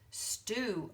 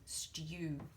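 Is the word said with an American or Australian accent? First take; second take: American; Australian. First: A plain 'oo' vowel with no 'y' sound. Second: A 'y' glide comes before the 'oo' vowel. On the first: "excuse my terrible American accent" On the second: "in Australia, we follow more the British pronunciation"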